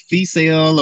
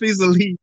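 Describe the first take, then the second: First: The name is blurred into something like 'Feesale'. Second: The name is said clearly as 'Feast of Lee'. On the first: The speaker calls it wrong. "most people say Feesale or whatever" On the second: The speaker calls it right. "It's Feast of Lee"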